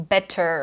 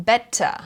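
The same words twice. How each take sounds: First: 'better' ending in a clear R; pronounced final R. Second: 'better' ending in a relaxed 'uh', no R; silent final R. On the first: Teacher showing what to avoid, R sounded in 'better'. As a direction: curl the end of 'better' into an American 'er'. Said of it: "instead of". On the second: Teacher showing British endings, 'better' without R. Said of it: "we don't pronounce the R". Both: Shown as a demonstration.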